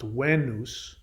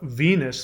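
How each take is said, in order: First: The word begins with a W sound. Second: The word begins with a V sound. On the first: "is actually pronounced Venus" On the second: "when we read it"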